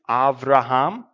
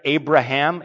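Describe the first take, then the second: First: The second consonant is a V sound. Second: The second consonant is a B sound.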